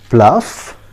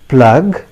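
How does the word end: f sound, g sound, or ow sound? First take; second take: f sound; g sound. First: The word ends with an f sound. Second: The word ends with a g sound. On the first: "many of us pronounce it pluff" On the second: "It's not at all acceptable"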